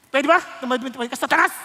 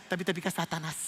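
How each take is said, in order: First: "Satanas!" rising, louder at the end; exclamation. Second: Said in the usual way. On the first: Shown as a demonstration. Jesus rebuking Peter, "Satanas!" exclaimed. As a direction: punch "Satanas!" as a sharp exclamation. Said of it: "exclamation point din". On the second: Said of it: "Hindi sabi niya".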